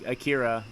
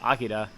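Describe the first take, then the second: First: The name is said with an English-style pronunciation. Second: The name is said with a Japanese-style pronunciation. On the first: This is how most people say it. The speaker calls it wrong. "what everybody calls it" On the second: This is the correct pronunciation. The speaker calls it right. "that's the correct pronunciation"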